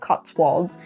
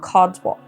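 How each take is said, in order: First: The middle consonant is a clear T sound. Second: The middle consonant is a D sound.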